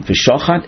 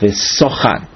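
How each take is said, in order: First: The word is said with an sh sound. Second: The word is said with an s sound. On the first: It means to slaughter. "If it's above the right head of the shin, then it's read as an sh sound" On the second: It refers to where the animal converses. "it is then read with an S sound as v'sochat"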